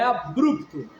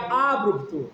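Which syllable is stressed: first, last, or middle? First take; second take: middle; first. First: The stress is on the middle syllable. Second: The stress is on the first syllable. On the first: "Mas como é paroxítona, é abrupto" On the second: "Se fosse proparoxítona, seria abrupto"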